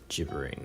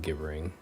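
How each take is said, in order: First: The word begins with a soft J sound. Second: The word begins with a hard G sound. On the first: "Google does a pronunciation as gibbering with a J" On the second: "I like my way better"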